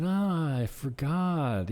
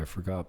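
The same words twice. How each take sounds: First: High, drawn-out mock realization; feigned forgetfulness. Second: Said in the usual way. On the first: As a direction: stretch it out as if just remembering. Acting out pretended forgetting.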